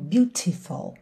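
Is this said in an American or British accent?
British. It is said in a British accent.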